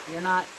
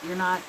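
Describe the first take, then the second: No difference in how they are said.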